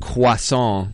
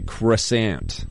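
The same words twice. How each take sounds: First: The word is said with a French pronunciation. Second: The word is said with an American pronunciation. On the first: "instead of croissant" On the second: "how Americans like to say"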